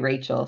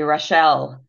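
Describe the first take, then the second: First: The name is said the English way. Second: The name is said the French way.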